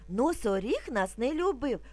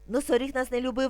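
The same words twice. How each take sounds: First: It is spoken at a somewhat quicker pace. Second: It is spoken at a very rapid pace. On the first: "А тепер трошки швидше" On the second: "Тепер дуже швидко"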